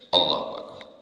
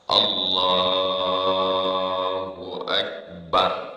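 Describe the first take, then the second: First: The phrase is said short and quick. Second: The phrase is drawn out long.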